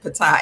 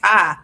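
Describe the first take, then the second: First: The name starts with a sounded P. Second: The name starts without any P sound. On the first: The speaker calls it wrong. "I've been pronouncing it Patai" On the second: The speaker calls it right. "It's Thai"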